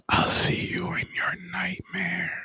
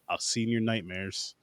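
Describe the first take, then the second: First: It is said in a whisper. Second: It is spoken in a normal voice.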